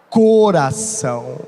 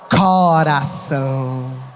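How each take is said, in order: First: It is said in a Rio de Janeiro accent. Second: It is said in a Ceará accent. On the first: "sabe como que ela iria pronunciar? Coração. Porque é lá do sudeste" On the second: "você que é cearense da gema, você fala coração"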